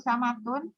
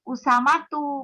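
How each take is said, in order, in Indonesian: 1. Nama itu berakhir dengan bunyi -un. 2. Nama itu berakhir dengan bunyi -u saja.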